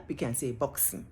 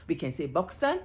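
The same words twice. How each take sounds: First: "Buxton" with the t swallowed into a glottal stop, bux'n; soft "Buxton", dropping the t in the throat. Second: "Buxton" with the t fully sounded, buks-ton; clear t. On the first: Linguist demonstrating the glottal-stop version of "Buxton", quieter and swallowed. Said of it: "you swallow the T and you say Buxton". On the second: Linguist demonstrating free variation to viewers, "Buxton" with full t. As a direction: say "Buxton" crisp, every consonant there. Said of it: "you can say a word in many ways". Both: Shown as a demonstration.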